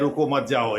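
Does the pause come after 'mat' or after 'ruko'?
after mat. The pause comes after the word mat. Do not stop; go on. "यानी यहाँ रुकने की ज़रूरत नहीं है जाओ"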